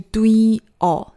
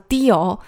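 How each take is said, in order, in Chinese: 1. 第一个元音要完整发出来，读作 wi。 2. 第一个元音读得很快，而且弱化了。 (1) "实际上应该是뛰어" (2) "念快了呢其实会有点像뛰어"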